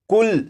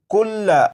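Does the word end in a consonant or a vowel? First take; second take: consonant; vowel. First: The word ends abruptly on the doubled consonant. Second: The word ends with a short vowel after the consonant. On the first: The reciter pauses at the end of the word. "लाम के ऊपर जो जबर है इस जबर को नहीं पढ़ेंगे" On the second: The word is read in running recitation, not at a stop. "ये लफ्ज लिखा है कुल्ला"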